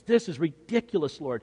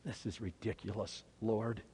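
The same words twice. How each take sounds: First: Full-voiced acted protest; exasperated objection at speaking volume; open exasperation. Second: Very soft, low muttered thought; hushed, low private disbelief; thinking it. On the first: Repeats Peter's thought aloud as protest. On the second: Acted. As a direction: say it under your breath, to yourself. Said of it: "hear Peter thinking those words".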